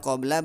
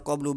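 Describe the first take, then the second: First: The word ends with an 'a' vowel. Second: The word ends with a 'u' vowel. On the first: The word is followed by a possessor noun. "Kalau dibaca ba'da qabla berarti ada mudhof ilaihnya" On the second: The possessor noun has been dropped. "Kalau dibaca qablu ba'du berarti mudhof ilaihnya dibuang"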